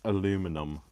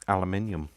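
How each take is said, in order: First: It is said a non-British way. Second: It is said the British way. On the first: The speaker calls it wrong. "not aluminum" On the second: The speaker calls it right. "I am a British person. I say"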